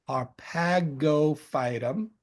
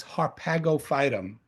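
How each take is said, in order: First: "Harpagophytum" drawn out slowly, part by part; slow enunciation. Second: Said in the usual way. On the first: Shown as a demonstration. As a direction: say "Harpagophytum" at half speed, as if teaching it. Repeats Latin name slowly to teach.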